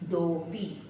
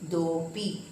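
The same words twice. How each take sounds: Both takes have the same delivery.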